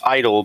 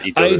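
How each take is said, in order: First: The word is said with an English accent. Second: The word is said with a Japanese accent. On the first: "It's it's it's idol" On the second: "but with the, the Japanese accent"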